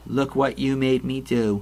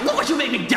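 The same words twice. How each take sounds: First: It is said flatly in a monotone. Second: It is said angrily with strong emotion. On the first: The speaker shows no real feeling. The speaker calls it wrong. "But instead we get, ... her delivery is painfully monotone" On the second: The speaker is furious at the person addressed. The speaker calls it right. "you'd expect the delivery to be like, ah"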